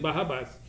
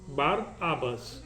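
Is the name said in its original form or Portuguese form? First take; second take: Portuguese; original. First: The name is said in Portuguese-adapted form. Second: The name is said in its original form. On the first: This is how it is said in Brazil. "pelo aportuguesamento da pronúncia se diz Barrabás" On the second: This is the name's true form. "mas na verdade é Bar Abbas"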